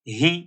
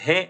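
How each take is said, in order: First: The vowel is a short i. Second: The vowel sounds like e. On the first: The speaker calls it right. "बल्कि इसको पढ़ेंगे ही" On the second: The speaker calls it wrong. "और हे ऐसे भी नहीं पढ़ेंगे"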